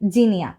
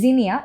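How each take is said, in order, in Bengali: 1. শব্দটি j শব্দ দিয়ে শুরু হয়। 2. শব্দটি z শব্দ দিয়ে শুরু হয়। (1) "বাংলায়" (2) "জ্যাট দিয়ে শুরু হয়, এর জন্য প্রোনাউন্সিয়েশনটা আমরা জিনিয়া এভাবে করে থাকি"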